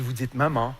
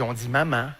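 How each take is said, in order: First: Low "maman" with back nasal ending; French "maman". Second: Low "maman" with fronted last vowel; Québécois "maman". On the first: Answering how Parisians say it, low "maman" with nasal ah. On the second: Answering how Québec says it, low "maman" with fronted ending. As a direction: end "maman" on a nasal near eh. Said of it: "nous, on dit maman". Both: Shown as a demonstration.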